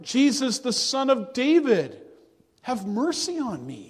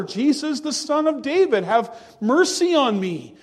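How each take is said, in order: First: Crying out. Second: "Jesus, the Son of David" called out louder and higher, pleading; a blind man's pleading call, raised up; louder cry. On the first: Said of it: "And he cried out". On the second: Blind man cries louder to Jesus over the crowd, a louder pleading call. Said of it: "he said it even louder". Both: Retold or imitated.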